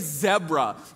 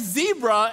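First: The word is said with a British accent. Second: The word is said with an American accent. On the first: This is how the children say it after watching the show. "they started to say zebra" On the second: This is how the children used to say it. "They stopped saying zebra"

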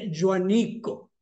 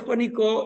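First: The name begins with a Catalan joa sound. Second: The name begins with a Spanish jua sound.

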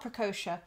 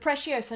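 First: The middle sounds like 'co'. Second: The middle sounds like 'see-oh'. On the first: The speaker calls it wrong. "not Precocia" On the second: The speaker calls it right. "so Preciosa"

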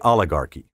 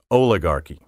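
First: The first vowel is a short O. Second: The first vowel is a long O. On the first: The speaker calls it right. "Properly, the initial O is short, as in olive and college" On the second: The speaker calls it wrong. "pronounce oligarchy with a long O"

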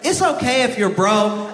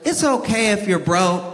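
First: The sentence is said at a loud volume. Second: The sentence is said at a quiet volume.

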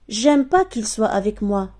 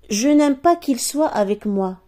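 First: The 'n' of the negation is left out. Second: The 'n' of the negation is pronounced.

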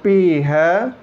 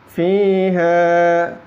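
First: The word begins with a p sound. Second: The word begins with an f sound. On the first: The speaker calls it wrong. "bukan piha" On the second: The speaker calls it right.

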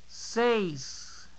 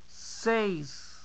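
No difference in how they are said.

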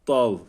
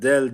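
First: The d is heavy with a back vowel. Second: The d is light with a front vowel. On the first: The speaker calls it right. "Kalın bir harf" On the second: The speaker calls it wrong. "Buna del diyenler var"

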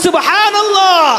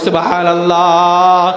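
First: The word is shouted even more loudly. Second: The word is shouted fairly loudly. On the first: "আরো জোরে বলি" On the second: "একটু চিৎকার করে বলি"

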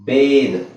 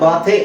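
First: It sounds like 'bayd', ending in a voiced consonant. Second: It sounds like 'baa-the', ending in a vowel. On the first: The speaker calls it right. "ಇದನ್ನ ನಾವು ಬೇದ್ ದ ಹೇಳಬೇಕು" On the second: The speaker calls it wrong. "ನಾವು ಇದನ್ನ ಬಾತೆ ಅಂತ ಹೇಳಲ್ಲ"

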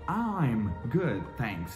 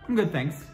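First: Each word is pronounced slowly and very clearly. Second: It is said fast, with I'm reduced to hum.

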